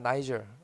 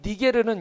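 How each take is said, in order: First: It is said as nai-jeol. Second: It is said as ni-ge-reu. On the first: "니게르는 영어로는 나이절입니다" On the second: "이 니게르는 영어로 보여주실래요?"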